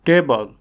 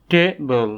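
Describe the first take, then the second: First: Said in the usual way. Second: "table" in two beats, ta, ble; split into syllables. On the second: Shown as a demonstration. Teacher showing learners the two syllables, "table" split in two. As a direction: say "table" with a small break after ta. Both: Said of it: "each of these words has two syllables".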